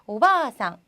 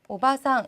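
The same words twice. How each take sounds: First: The vowel after 'ba' is long. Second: The vowel after 'ba' is short. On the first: It means grandmother. The speaker calls it right. "이 아까지 길게" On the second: It means aunt rather than grandmother. The speaker calls it wrong. "짧게 발음이 돼서"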